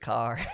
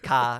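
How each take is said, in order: First: It is said in an American accent. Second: It is said in an Australian accent.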